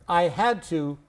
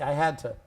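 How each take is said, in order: First: The word 'to' is said in full. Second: The word 'to' is reduced to a weak form.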